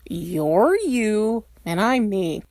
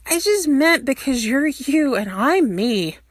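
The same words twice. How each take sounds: First: "You're you and I'm me." said very slowly, each word pressed; emphatic. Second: Said in the usual way. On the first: Shown as a demonstration. Stiles repeats himself to Derek, very slow and emphatic. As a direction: spell it out word by word with weight. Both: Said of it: "the emphatic gesturing does not make the same words any clearer".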